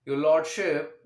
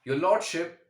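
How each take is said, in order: First: It is spoken at a slow pace. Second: It is spoken at a moderate pace. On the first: "सबसे पहले slow speed." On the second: "अब एक moderate speed पर आते हैं।"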